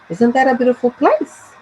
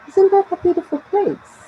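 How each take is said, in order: First: The voice rises at the end. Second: The voice falls at the end.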